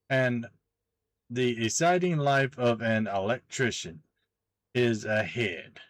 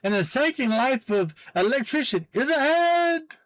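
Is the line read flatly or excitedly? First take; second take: flatly; excitedly. First: It is read plainly, without excitement. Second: It is read with exaggerated exclamation excitement.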